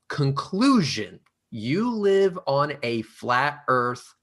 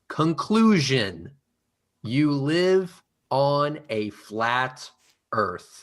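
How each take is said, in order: First: The phrase is read at a normal pace. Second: The phrase is read very slowly.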